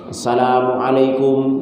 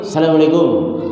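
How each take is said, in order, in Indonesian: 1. Setiap suku kata salam itu terucap dengan jelas. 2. Salam itu diucapkan tidak jelas, suku katanya saling menyatu. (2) "ucapannya malah nggak jelas"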